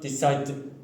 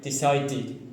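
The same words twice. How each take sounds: First: The ending is not a separate syllable. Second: The ending is a separate extra syllable. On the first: The speaker calls it wrong. "not decided" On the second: The speaker calls it right. "you have to say ed, like decided"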